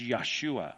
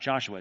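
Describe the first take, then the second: First: The name begins with a Y sound. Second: The name begins with a J sound. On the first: The speaker calls it right. "it's always a Y, not a J" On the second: The speaker calls it wrong. "Joshua is not Joshua"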